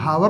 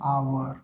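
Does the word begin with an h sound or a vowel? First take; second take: h sound; vowel. First: The word begins with an h sound. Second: The word begins directly with a vowel. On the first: The speaker calls it wrong. "इसको हावर नहीं पढ़ते हैं" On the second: The speaker calls it right. "इसको क्या पढ़ते हैं, आवर"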